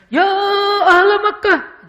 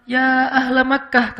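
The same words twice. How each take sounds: First: High, loud, dramatic preacher's cry, slow; overdone pulpit yell; preacher's shout. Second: A measured, unforced call, slow and composed; slow, dignified summons; gentle call. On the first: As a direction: bellow it like a fiery khatib. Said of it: "hadis ini berubah nadanya". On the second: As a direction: call out calmly without straining. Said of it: "Yang beda justru khatib". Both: Shown as a demonstration.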